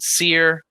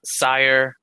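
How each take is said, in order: First: The name rhymes with 'fear'. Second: The name rhymes with 'fire'. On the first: "some people call it Seer" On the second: "some people call it Sire"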